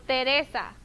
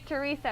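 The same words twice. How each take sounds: First: The vowels sound like Spanish vowels. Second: The vowels sound like English vowels. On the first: The speaker calls it right. "In Spanish, remember the letter E, it sounds like E" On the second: The speaker calls it wrong. "don't say Teresa"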